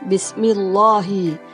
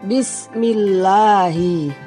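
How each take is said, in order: First: The L is heavy and thick, with an O-like vowel. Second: The L is light and thin, with an A vowel. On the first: The speaker calls it wrong. "bukan Bismillahi" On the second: The speaker calls it right. "bunyinya terdengar A. ... Tapi yang betul Bismillahi"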